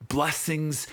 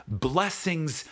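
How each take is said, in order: Both takes have the same delivery.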